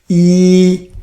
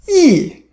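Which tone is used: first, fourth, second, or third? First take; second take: first; fourth. First: It is said with the first tone. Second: It is said with the fourth tone. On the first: "First song, you practice yi" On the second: "Fourth tone"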